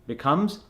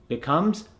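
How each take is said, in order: The two takes are said the same way.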